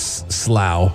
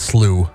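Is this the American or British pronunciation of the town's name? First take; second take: British; American. First: The name is said the local British way. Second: The name is said like the word 'slew'. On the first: This is how locals say it. The speaker calls it right. "but it's Slough over there" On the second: This is how Americans would read it. The speaker calls it wrong. "We would say it's slew"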